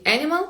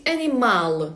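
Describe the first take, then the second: First: "animal" as English AN-i-mal; English-style "animal", weak ending; English pronunciation. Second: "animal" as a-nee-MAL; Portuguese-style "animal", long final MAL; Portuguese pronunciation. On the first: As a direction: stress the first syllable of "animal", quickly. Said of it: "В англійській animal". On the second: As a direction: stress the last syllable of "animal". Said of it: "а в португальській animal". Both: Shown as a demonstration.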